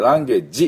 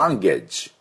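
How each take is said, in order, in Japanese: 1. 最後の音は、平たくてやわらかい日本語の'ji'です。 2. 最後の音は、鋭くてシューッと擦れる'ge'です。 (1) "ランゲージって言ってもいけません" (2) "焼肉のタレが蒸発する時のチッチッチッだから"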